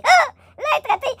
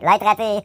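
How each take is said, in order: First: L'être raté shrieked very high; high squeal. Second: Said in the usual way. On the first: Shown as a demonstration.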